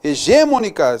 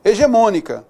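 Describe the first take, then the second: First: "Hegemônica" stressed on GE, not MÔ; wrong stress. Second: "Hegemônica" stressed on MÔ; correct stress. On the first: Teacher showing the error, Hegemônica stressed on GE. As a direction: punch the GE in "Hegemônica". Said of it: "Tá errado isso daí". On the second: Teacher correcting the word, Hegemônica stressed on MÔ. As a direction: land on the MÔ of "Hegemônica". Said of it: "o correto é hegemônica". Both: Shown as a demonstration.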